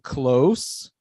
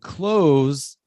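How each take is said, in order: First: The word ends with a hissing s sound. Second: The word ends with a buzzing z sound. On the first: It means near. "close, perto" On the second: It means to shut. "close, de fechar"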